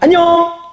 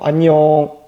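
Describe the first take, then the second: First: It sounds cheerful and smiling. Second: It sounds sulky and glum.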